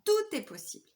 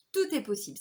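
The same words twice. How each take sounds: First: Bright upbeat refrain on Tout; sing-song mantra. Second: Said in the usual way. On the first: Retold or imitated. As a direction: Tout est possible lifted much higher, a cheerful chant. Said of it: "C'est ce que je dis à mon chéri tout le temps". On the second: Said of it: "C'est ce que je dis à mon chéri".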